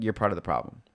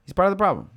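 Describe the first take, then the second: First: Said in the usual way. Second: He's part of the problem said much higher and louder, PART hit hard; emphatic repeat. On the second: Real, not acted. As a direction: punch PART, voice jumping up high. Emphatic repeat of his point.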